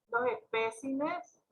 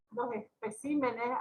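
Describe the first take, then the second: First: "especímenes" misstressed as es-PÉ-cimenes; wrong stress on PÉ. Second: "especímenes" stressed as espe-CÍ-menes; correct stress on CÍ. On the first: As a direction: read "especímenes" with the stress too early, on PÉ. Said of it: "Esta palabra es la que está mal". ("especímenes" mal acentuado en PÉ) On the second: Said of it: "y tiene que ser especímenes". ("especímenes" con acento en CÍ) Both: Shown as a demonstration.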